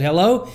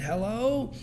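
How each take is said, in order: First: Louder, curt irritated hello; mad hello. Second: Much softer, drowsy hello; sleepy hello. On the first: Stranger woken by a third call answers with a louder, mad hello. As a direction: answer like the phone has rung once too often. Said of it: "and he was mad this time". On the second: Woken in the night by a phone call, a sleepy, much softer hello. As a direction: answer like you were just woken up. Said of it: "this person was sleeping". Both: Retold or imitated.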